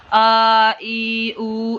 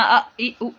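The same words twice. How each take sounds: First: آ ای او stretched long, the wrong way; drawn-out vowels, wrong way. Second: آ ای او each cut off with a jolt; jerked vowels, wrong way. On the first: Teacher demonstrates the wrong, overlong vowels. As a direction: drag out آ, ای, او too long on purpose. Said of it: "ایسے لمبا نہیں کرنا". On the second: Teacher demonstrates the wrong, jerky vowels. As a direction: clip آ, ای, او abruptly on purpose. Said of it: "ایسے جھٹکا بھی نہیں دینا". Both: Shown as a demonstration.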